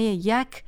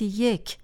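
First: The word is said with an "a" vowel. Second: The word is said with an "e" vowel. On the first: This is the older pronunciation still used in Afghanistan. "با فتحه تلفظ می شود که همان تلفظ افغانستان است" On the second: This is the current pronunciation used in Iran. "در ایران این کلمه اکنون به صورت یک تلفظ می شود"

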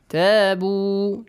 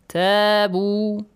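No difference in how they are said.

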